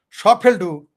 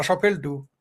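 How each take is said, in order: First: Louder repeat with সব hit hard. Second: Said in the usual way. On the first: Shown as a demonstration. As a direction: slam the repeat সব ফেলটু. (জোরে, সব শব্দে জোর দিয়ে)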